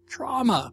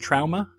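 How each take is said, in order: First: The first vowel sounds like 'aw'. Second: The first vowel sounds like 'ow'. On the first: The speaker calls it right. "No, it's trauma" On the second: The speaker calls it wrong. "Is that how they pronounce A-U over there?"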